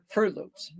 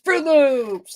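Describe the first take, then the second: First: Said in the usual way. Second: Put-on high, loud, thrilled child's voice; imitating a child asking for Fruit Loops, bursting with excitement; excited kid. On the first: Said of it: "A kid does not say". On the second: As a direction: squeal it like a kid who loves cereal. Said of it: "They get excited".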